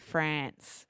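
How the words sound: It is said with an Australian pronunciation. "I used my Aussie accent to say France"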